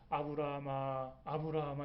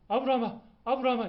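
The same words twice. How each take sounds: First: The name is called calmly and slowly. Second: The name is called urgently and fast.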